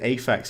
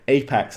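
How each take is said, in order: First: The middle consonant is an f sound. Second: The middle consonant is a p sound. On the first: The speaker calls it wrong. "I nearly pronounced it Aphex" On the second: The speaker calls it right. "No, Apex, like Apex Legends"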